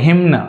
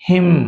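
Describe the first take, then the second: First: The word ends with an added n sound. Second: The word ends on an m sound. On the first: The speaker calls it wrong. "హిమ్న్ అనకూడదు" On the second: The speaker calls it right. "హిమ్ not హిమ్న్"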